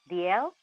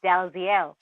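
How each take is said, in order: First: It sounds like 'dee-ell'. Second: It sounds like 'dal-zeel'. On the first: The speaker calls it right. "but actually it's pronounced D L" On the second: The speaker calls it wrong. "So you would think it's Dalziel"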